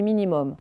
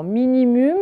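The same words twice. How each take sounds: First: "minimum" ending clearly in "-mom"; "minimum" said right, last syllable "mom"; correct pronunciation. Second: "minimum" with the ending said "mum-y", like the letters; "minimum" said the wrong way, ending "-my"; read as written. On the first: Teacher correcting the pupils' reading, careful "minimum". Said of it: "on dit minimum". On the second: Teacher showing pupils the misreading of "minimum". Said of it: "mais en fait on dit minimum". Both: Shown as a demonstration.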